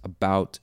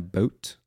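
First: The vowel is said in an American way. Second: The vowel is said in a Canadian way. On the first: "would say, like I just did" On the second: "a Canadian might say"

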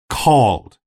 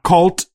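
First: The word ends with a hard D sound. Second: The word ends with a T sound. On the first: The speaker calls it right. "The D sound. A hard D sound" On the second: The speaker calls it wrong. "not cult with a T"

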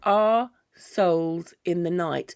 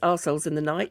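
First: The words 'our' and 'souls' are said slowly and kept separate. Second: The words 'our' and 'souls' are run together into one word. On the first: "which I'm going to say it slowly" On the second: "if you say it as a British person"

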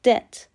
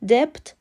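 First: The b sound is not pronounced. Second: The b sound is pronounced. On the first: The speaker calls it right. "تلفظ درست debt" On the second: The speaker calls it wrong. "debt غلطه، بی سایلنته و خونده نمیشه"

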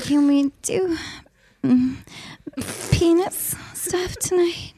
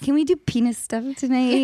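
First: It is said in a sexy voice. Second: It is said in a normal voice.

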